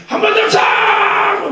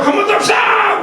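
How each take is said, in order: First: High, slow, shouted call to sing again; fervent shout. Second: High shouted call with a laugh. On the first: Song leader urging the congregation, high shout. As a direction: rouse the room, stretched out. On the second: Song leader urging another chorus, laughing shout. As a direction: egg them on again, laughing. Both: Retold or imitated. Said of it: "인도하는 사람이 충만하니까".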